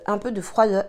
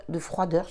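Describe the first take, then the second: First: "froideur" slurred with the r dropped, like "fwoideu"; lisped froideur. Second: "froideur" said carefully with a clear r and the final r sounded. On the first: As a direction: stumble on "froideur", r lost to the tongue piercing. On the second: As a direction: work hard to get "froideur" right, quietly. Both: Real, not acted. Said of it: "je vais y arriver".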